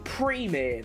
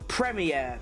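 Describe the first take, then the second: First: It is said with a non-British pronunciation. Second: It is said with the British pronunciation. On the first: The speaker calls it wrong. "That is the worst pronunciation to a thing" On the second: The speaker calls it right. "You come to England, Premier. That's what it is"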